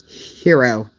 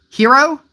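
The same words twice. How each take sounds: First: Hero. read with a flat falling end; flat statement. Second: Hero? with a higher rising end; rising question. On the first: Reading chat's Hero. as a flat statement. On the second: Reading chat's Hero? back as a question. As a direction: ask Hero? as a puzzled question. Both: Shown as a demonstration. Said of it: "It does sound like a question".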